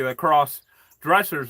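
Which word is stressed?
dressers. The stress falls on the word dressers. Angry people who dress smartly.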